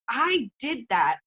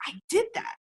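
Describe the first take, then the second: First: Slow, falling, each word "I did that" set down; firm ownership. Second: Much higher, rising with delight; proud exclaim. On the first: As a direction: own it calmly and firmly. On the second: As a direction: announce it like a surprise win. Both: Shown as a demonstration. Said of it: "Look at it and say".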